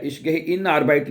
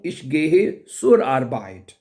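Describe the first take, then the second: First: Ich gehe in Arbeit said slowly as the mistake; slow wrong example. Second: Zur stressed in Ich gehe zur Arbeit, very slow. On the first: Teacher contrasts the wrong form slowly. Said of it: "नहीं कहना". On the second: Teacher gives the correct sentence slowly. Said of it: "मैं काम पे जा रहा हूँ". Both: Shown as a demonstration.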